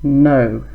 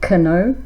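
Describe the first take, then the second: First: The word starts without a K sound. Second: The word starts with a K sound. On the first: The speaker calls it right. "Silent K" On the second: The speaker calls it wrong. "Not cano"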